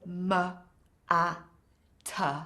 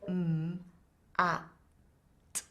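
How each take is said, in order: First: Each consonant ends with an added uh vowel. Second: Each consonant is said with no added vowel. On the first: The speaker calls it wrong. "it's really hard for the child to say mat" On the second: The speaker calls it right. "it's so much easier to put those sounds together"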